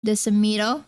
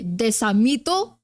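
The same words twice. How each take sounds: First: Desamito said the American way, dih-suh-MEE-toh; anglicized Desamito with a lazy schwa; American accent. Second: Desamito said slowly, deh-sah-MEE-toh, pure vowels; Filipino pronunciation. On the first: Retold or imitated. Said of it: "their family names in such a American accent". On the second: Shown as a demonstration. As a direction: Desamito with clear Tagalog e and a, rising. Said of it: "In Filipino, you say".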